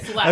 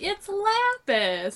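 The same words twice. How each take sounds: First: It is said flatly, with no expression. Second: It is said in a playful, teasing tone.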